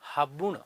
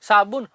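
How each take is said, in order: First: The word begins with an h sound. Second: The word begins with an s sound.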